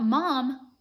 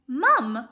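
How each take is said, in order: First: "mom" with an open American "ah"; "mom" in an American accent. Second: "mum" with a short British "uh", punched louder; "mum" in a British accent, stressed. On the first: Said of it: "not mom". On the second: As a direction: say "mum" to rhyme with drum, firmly. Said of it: "not mom, mum". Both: Shown as a demonstration.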